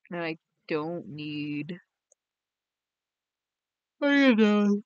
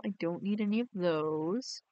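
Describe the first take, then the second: First: "any of those" punched louder; slow start, then hit "any" hard; emphatic repeat. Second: Said in the usual way. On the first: Real, not acted. Repeats the same refusal.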